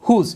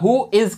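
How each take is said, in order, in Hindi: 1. यह एक छोटे संकुचित शब्द के रूप में बोला जाता है। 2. यह दो अलग-अलग पूरे शब्दों के रूप में बोला जाता है। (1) "जिसकी शॉर्ट फॉर्म हो जाती है हुज" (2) "हु इज के लिए इस्तेमाल होता है"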